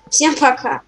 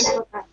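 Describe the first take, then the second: First: It is said at a louder volume. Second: It is said at a quieter volume.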